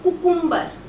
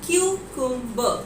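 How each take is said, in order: First: The word begins with a plain 'koo' sound. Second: The word begins with a 'kyoo' sound. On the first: The speaker calls it wrong. "That is totally incorrect" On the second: The speaker calls it right. "The correct pronunciation for the word कुकुम्बर is क्यूकुम्बर"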